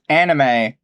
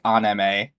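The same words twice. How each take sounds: First: It is said with English vowels, like in animation. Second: It is said with Japanese-style vowels, an open ah. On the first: The word is treated as short for an English word. The speaker calls it right. "it's anime because it's short for animation" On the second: The speaker is trying to sound like Japanese speakers. The speaker calls it wrong. "it like grinds my gears when people say anime, like the ah"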